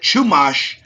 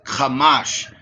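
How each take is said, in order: First: The word begins with a ch sound. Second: The word begins with a k sound. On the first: The speaker calls it wrong. "They got it Chumash" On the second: The speaker calls it right. "but it's Kamash"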